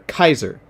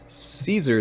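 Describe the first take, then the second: First: The name begins with a K sound. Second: The name begins with an S sound. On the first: This is the name as used in the later part. "Kaiser is the pronunciation of, of Caesar in, in part part seven" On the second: This is the name as used in the earlier part. "Caesar in part two of Joseph is pronounced Caesar"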